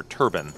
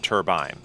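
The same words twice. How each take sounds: First: Turbine said TUR-bin, like turban; Texan pronunciation. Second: Turbine said TUR-byne; standard pronunciation. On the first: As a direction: turbine with a short, unstressed second syllable. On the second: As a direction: turbine with a long i in the second syllable. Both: Shown as a demonstration. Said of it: "as they say it in Texas".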